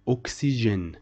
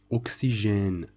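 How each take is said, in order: Both takes have the same delivery.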